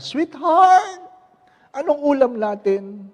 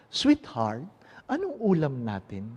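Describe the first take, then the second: First: High, loud call to a spouse; "sweetheart" sung out high and loud, then easing; calling from afar. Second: Quiet endearment, no calling out; spoken up close. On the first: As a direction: call out across ten steps. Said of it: "Sampung hakbang". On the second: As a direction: ask it gently at arm's length. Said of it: "Hindi na ako magsasalita sa malayo". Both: Acted.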